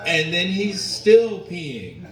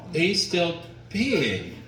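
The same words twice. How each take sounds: First: Louder disbelief. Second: Drawn-out disbelief. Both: Retold or imitated. Disbelief at dad's endless pee.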